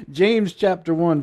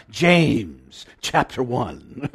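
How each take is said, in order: First: Said in the usual way. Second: Slow, louder mock-British Bible reader; drawn-out British announcement, breaking into a laugh; imitated British accent. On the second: Preacher echoing his Bible app reader, strong British accent. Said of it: "it just wants to come out".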